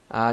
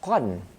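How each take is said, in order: First: The word ends with a lengthened a vowel. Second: The word ends with a nasal n sound. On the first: The speaker calls it right. "Cara baca dia ialah aa" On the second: The speaker calls it wrong. "Tapi cara baca dia bukan qan kalau anda berhenti dah"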